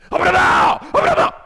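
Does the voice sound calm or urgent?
urgent. It is said in a hurried, flustered voice. The speaker calls it right. "하나님이 얼마나 당황을 하는지"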